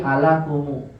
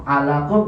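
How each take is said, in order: First: ALAKUMU with a u added after the m; final dammah. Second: Said in the usual way. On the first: Shown as a demonstration. Teacher showing what alakum becomes, ALAKUMU ending in u. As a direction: end ALAKUMU on an open mu. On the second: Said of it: "jadi alakumu".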